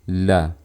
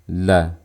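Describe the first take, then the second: No difference in how they are said.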